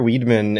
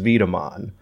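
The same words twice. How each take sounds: First: The name begins with an English W sound. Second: The name begins with a V sound.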